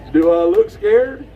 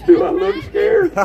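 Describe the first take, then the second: First: Said in the usual way. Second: Laughing through a scoffing question. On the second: Real, not acted. Asked if she's scared, laughs back at the crowd. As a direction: toss the question back while still laughing.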